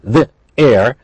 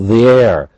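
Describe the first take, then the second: First: The two words are said separately, not joined. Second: The two words run together without a break. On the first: The speaker calls it wrong. "We don't say the air" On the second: The speaker calls it right. "But they are linked"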